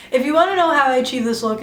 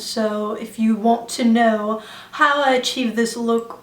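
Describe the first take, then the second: First: Said in the usual way. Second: Slow, lightly imitated British accent; put-on British accent. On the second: Vlogger introducing her look, playful put-on British accent. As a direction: attempt a British accent, drawing it out. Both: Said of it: "everything sounds better in a British accent".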